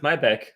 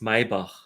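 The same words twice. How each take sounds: First: The name is said with an American English pronunciation. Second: The name is said with a German pronunciation. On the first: The speaker calls it wrong. "how do the Americans pronounce it?" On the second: The speaker calls it right. "It's Maybach because it's German"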